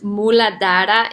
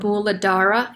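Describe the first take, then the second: First: It is said with a Sanskrit pronunciation. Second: It is said with an American English accent. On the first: "in Sanskrit" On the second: "if you're saying it with an American accent"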